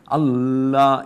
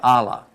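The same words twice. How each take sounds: First: The L sound is doubled and held long. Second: The L sound is single and short. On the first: The speaker calls it right. "So you say Allah" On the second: The speaker calls it wrong. "you don't say Allah"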